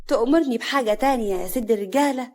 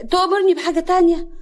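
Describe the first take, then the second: First: Mild, coaxing offer; fawning. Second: Much higher, louder question; insistent repeat. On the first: Woman flattering the man she serves, coaxing. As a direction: ask sweetly at his service. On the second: Woman repeating her offer to a dazed man, raised voice. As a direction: repeat it brightly to get his attention. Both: Acted.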